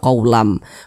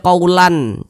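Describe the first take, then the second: First: The ending n merges into a nasal m sound. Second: The ending n stays a separate n sound. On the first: The speaker calls it right. "jangan tapi dibaca qaulam" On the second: The speaker calls it wrong. "Jangan dibaca qaulan"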